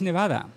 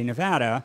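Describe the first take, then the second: First: Nevada is pronounced in a Spanish style. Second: Nevada is pronounced in an American style. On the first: This is the original form, meaning snow covered. "pronounce it correctly because it's Nevada" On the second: This is the everyday local form. "because of American colloquialism ... we say Nevada"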